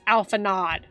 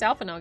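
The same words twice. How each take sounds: First: The name is said with an English-style pronunciation. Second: The name is said with a French-style pronunciation. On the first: The speaker calls it right. "The voice actors pronounced it so" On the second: The speaker calls it wrong. "you guys brainwashed me"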